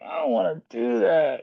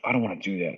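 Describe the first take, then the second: First: It is said in a tired, sleepy voice. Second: It is said in a tough voice.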